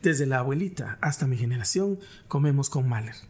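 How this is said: The delivery sounds cold and hard. It carries no emotional connection. The speaker calls it wrong. "Eso no te da esa calidez"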